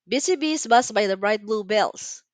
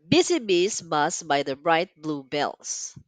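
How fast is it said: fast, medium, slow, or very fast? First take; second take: fast; slow. First: It is spoken at a fast pace. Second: It is spoken at a slow pace. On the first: "Faster this time" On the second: "let's get ready"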